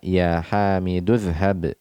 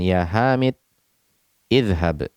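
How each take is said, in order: First: The words run together without the starting 'i' sound. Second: The words are separated, with the second starting on 'i'. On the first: The standard continuous reading. "kita meneruskan bacaan kita" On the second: Casual speech that breaks up the phrase. "dia suka memotong pembicaraannya"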